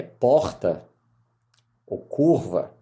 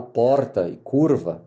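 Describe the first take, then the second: First: Mineiro accent on "porta" and "curva"; native Mineiro accent. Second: São Paulo accent on "porta" and "curva", made clearer; adapted São Paulo accent. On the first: Mineiro lawyer showing his own speech, Mineiro accent. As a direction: say "porta" and "curva" with a Belo Horizonte r. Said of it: "eu tenho que mudar meu sotaque". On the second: Mineiro lawyer making himself understood, São Paulo accent. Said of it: "pra deixar mais claro". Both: Shown as a demonstration.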